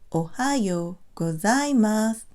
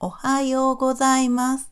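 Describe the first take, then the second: First: Syllables vary in length, with some strongly stressed. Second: Even syllables, with high and low pitch accents. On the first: The speaker calls it wrong. "length of syllables, stress certain syllables, and emphasize pitch" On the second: The speaker calls it right. "roughly the same length and evenly stressed. We also emphasize pitch"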